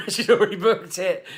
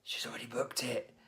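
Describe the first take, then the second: First: High, loud, laughing protest; exaggerated high-pitched excuse; mock defiance. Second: Urgent whisper to a colleague; hushed, voiceless aside. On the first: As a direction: plead helplessly in a hammed-up high voice. Rehearses defiant reply to boss. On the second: Retold or imitated. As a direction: whisper it like a secret in the office. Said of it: "I'm whispering to my colleague".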